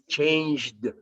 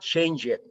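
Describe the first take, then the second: First: The final D joins straight onto the J sound. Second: The ending sounds like a separate extra syllable. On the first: The speaker calls it right. "You connect the J sound with the D" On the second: The speaker calls it wrong. "But it's not change it"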